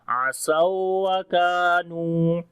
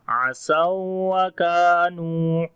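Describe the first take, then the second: The two takes are said the same way.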